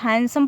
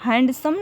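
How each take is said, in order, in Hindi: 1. d की आवाज़ silent रहती है। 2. d की आवाज़ बोली जाती है। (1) "इसको हैंडसम पढ़ा जाएगा" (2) "हैंडसम नहीं पढ़ा जाएगा"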